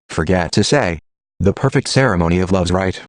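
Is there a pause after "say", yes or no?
yes. It comes to a full stop after "say".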